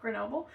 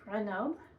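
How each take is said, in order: First: It is said with an English pronunciation. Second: It is said with a French pronunciation. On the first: "I have a hard time committing to the French accent, so" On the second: "in French it's Grenoble"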